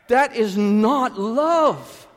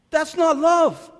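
First: High, loud, very slow, every word weighed; slow emphatic denial. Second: Higher and loud, driving home love; emphatic repeat. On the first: Pastor firmly rejecting false love before the church. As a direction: hammer it down word by word. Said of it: "emphatic rebuttal". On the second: Pastor repeating his point to the congregation. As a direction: push it even harder the second time. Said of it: "repeated rebuttal". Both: Acted.

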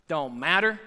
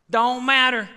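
First: Said in the usual way. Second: Louder, punched Don't matter; forceful louder repeat; emphatic repeat. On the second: Acted. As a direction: slam it down the second time. Preacher repeats line, building.

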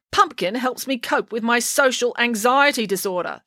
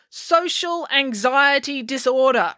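First: Said in the usual way. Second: Slowly, word by word; slow deliberate repeat. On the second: Acted. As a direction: spell it out slowly. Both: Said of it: "repeated April".

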